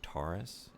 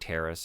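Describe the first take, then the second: First: The first vowel sounds like 'or'. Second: The first vowel sounds like 'air'. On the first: This is how outsiders say it. "anyone that's coming into this world from off-world saying" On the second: This is how the locals say it. "the native peoples, saying Terrace"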